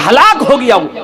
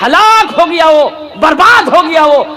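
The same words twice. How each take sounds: First: Said in the usual way. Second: ہلاک stressed, higher and falling hard; emphatic warning. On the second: Real, not acted. Preacher warns the youths, ہلاک stressed with a hard fall. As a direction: drive the word ہلاک home. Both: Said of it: "repeated for emphasis".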